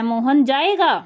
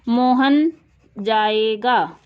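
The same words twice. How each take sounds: First: It is said with an exclamatory, surprised tune. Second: It is said as a plain, level statement. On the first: It expresses surprise that the person will go. "तो विस्मयादि बोधक" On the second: It simply states that the person will go. "ये simple sentence है, साधारण वाक्य है"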